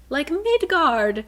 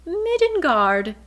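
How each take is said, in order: First: "like Midgard" drawn out slowly, high and loud; stretched delight. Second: "Midgard" called out high and loud in glee; light up at a familiar name; delighted recognition. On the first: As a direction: savor the name of home. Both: Retold or imitated. Bryce strangely comforted by Midgard.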